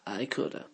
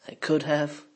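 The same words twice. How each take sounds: First: "coulda" with the have reduced to uh; contracted coulda. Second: Said in the usual way. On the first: Shown as a demonstration. Teacher showing the native contraction, swallowed. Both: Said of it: "the words get swallowed and contracted".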